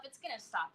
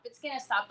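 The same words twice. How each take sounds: First: A muttered reassurance to yourself, much softer; soft hopeful murmur to yourself; quiet self-talk. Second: Said in the usual way. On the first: Retold or imitated. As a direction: tell yourself quietly it'll stop. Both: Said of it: "I kept telling myself".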